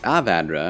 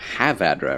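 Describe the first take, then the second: First: The word begins with a vowel sound. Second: The word begins with an H sound. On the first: The speaker calls it right. "It's Avadra" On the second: The speaker calls it wrong. "They always add an H before it"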